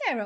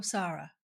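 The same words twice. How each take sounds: First: Sarah said as SAIR-uh; SAIR-uh pronunciation. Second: Sarah said as SAH-ruh; SAH-ruh pronunciation. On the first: Host checking a guest's name, Sarah as SAIR-uh. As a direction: say Sarah with an "air" vowel. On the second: Host offering the other name, Sarah as SAH-ruh. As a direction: say Sarah with a long "ah" vowel. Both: Shown as a demonstration. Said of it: "is it Sarah or Sarah?".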